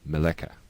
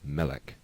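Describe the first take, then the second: First: The word ends with an added vowel sound. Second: The word ends on a consonant, no vowel. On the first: The speaker calls it wrong. "not meleka" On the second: The speaker calls it right. "End of the word, silent schwa"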